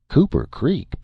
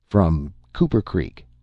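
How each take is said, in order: First: Surprised echo. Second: Said in the usual way. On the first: A narrator's reading. Bill surprised at the town.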